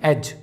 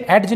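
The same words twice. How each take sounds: First: एज said "ej" with no D; silent D. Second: एड्ज said "ed-j" with audible D; D sounded. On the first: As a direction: go straight to the J in एज. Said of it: "इसे पढ़ेंगे हम". (एज में ड silent, सीधा ज) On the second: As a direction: put a D before the J in एड्ज. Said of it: "इसे एड्ज नहीं पढ़ेंगे". (एड्ज में ज से पहले ड बोलें) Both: Shown as a demonstration.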